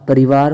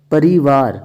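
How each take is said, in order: First: परिवार with a quick "ri"; short i. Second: परिवार with a long "ree". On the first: Teacher giving the correct form, short i in परिवार. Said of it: "होता है शुद्ध". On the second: Teacher showing the error, long ee in परिवार. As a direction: stretch परिवार into "pareevaar". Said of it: "परिवार होता है शुद्ध". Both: Shown as a demonstration.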